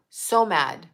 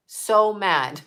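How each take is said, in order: Both takes have the same delivery.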